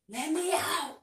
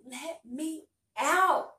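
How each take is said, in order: First: It is said at a calm, moderate level. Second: It is said loud and frantic, much more intense. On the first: "How I'm really saying it right now" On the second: "take that up, like, 20 notches of just, like, berserk"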